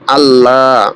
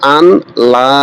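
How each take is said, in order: First: The n merges into a doubled l sound. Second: The n is kept separate before la. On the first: "একসাথে মিলিয়ে পড়ি তাহলে উচ্চারণটা হয়" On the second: "আন ভেঙে ভেঙে বলা হয়"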